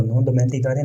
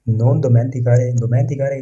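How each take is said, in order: First: Said in the usual way. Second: Non dimenticare drawn out word by word; slow model reading. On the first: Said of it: "teacher repeats phrase". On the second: Shown as a demonstration. Teacher repeating non dimenticare slowly for students. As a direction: stretch out non dimenticare for learners. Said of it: "teacher models Italian phrase".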